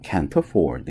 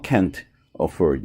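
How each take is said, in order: First: The t runs straight into the next word. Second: The t is separated from the next word. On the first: The speaker calls it right. "apostrophe t하고 a하고 이렇게 이제 발음이 붙어서 연음으로 나와요" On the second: The speaker calls it wrong. "이렇게 가는 게 아니라"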